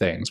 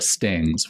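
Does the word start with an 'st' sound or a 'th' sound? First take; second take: th; st. First: The word begins with a 'th' sound. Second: The word begins with an 'st' sound. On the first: An adult is saying the word. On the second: A young child is saying the word.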